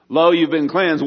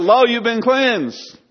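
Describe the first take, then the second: First: Louder and higher, proclaiming good news; joyful proclamation. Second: Much higher and slow, drawn-out and soaring; exalted proclamation. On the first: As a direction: announce it like a herald of heaven. Preacher proclaiming heaven's answer. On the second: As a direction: lift each word up like a blessing from above. Climax of heaven's answer. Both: Acted.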